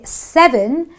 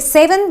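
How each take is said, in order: First: The first vowel is the eh sound. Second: The first vowel is not the eh sound. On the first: The speaker calls it right. "but I say seven days" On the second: The speaker calls it wrong. "I don't say seven"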